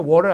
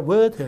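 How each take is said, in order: First: Water with a tapped T, like "waw-ruh"; American-style water, T rolled lightly. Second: Water with a crisp T and silent R; British water. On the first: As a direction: say water with the T softened to a flap. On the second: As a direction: say water as "weo-tuh". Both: Shown as a demonstration. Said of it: "water 아니라 water 이렇게 써요".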